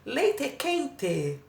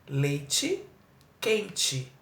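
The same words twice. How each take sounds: First: It is said in a Southern Brazilian accent. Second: It is said in the speaker's own accent. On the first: "eles falam algo parecido com leite quente" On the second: "a gente fala leite quente"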